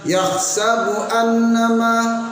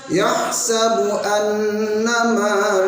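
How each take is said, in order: First: The n is cut short with no nasal hum. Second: The n is held with a nasal hum. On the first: The speaker calls it wrong. "dengungnya yang hilang" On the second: The speaker calls it right. "ada dengungnya satu alif pada dua harokat"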